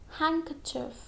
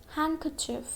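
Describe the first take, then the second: The two takes are said the same way.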